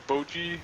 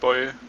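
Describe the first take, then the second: First: The name has two syllables, ending in a vowel. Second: The name has one syllable, rhyming with boy. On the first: The speaker calls it wrong. "would be the typical way to pronounce it" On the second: The speaker calls it right. "but it's actually Boy"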